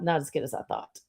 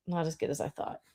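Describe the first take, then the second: First: Said in the usual way. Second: Much softer, muttered to herself; muttered repeat. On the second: Shown as a demonstration. Echo it quietly under your breath.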